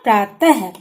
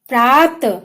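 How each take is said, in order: First: It ends with a final breathy h sound. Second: It ends without a final breathy h sound.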